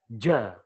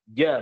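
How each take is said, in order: First: The consonant is voiced with a puff of air. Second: The consonant is voiced with no puff of air. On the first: The speaker calls it wrong. "bukan ja" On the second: The speaker calls it right. "hanya sebatas momentum suara aja"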